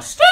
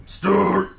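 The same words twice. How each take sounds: First: Short high yelp of the name; yelled squawk. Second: Loud, higher, stretched-out bellow; drawn-out yell. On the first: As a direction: yell it as a squealed gag. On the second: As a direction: holler the name long as a gag. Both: Retold or imitated. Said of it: "And we yell".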